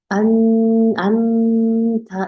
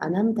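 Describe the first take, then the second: First: The first part is held overly long. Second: The word is rushed through quickly without holding. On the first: "이렇게 길게도 주시면 안 돼요" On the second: "이렇게 빨리 지나가시면 안 되고요"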